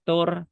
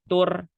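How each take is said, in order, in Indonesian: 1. Bunyi r itu tipis dan ringan. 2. Bunyi r itu tipis dan ringan.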